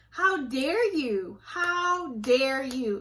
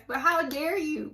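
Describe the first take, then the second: First: Very slow, each word weighed out; slow indignation. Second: Higher outrage. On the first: Scolding church manipulators, slow and indignant. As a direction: drag it out in disbelief. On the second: Scolding church manipulators, raised outrage. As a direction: throw the question hard. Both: Real, not acted. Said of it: "I'm trying not to cuss".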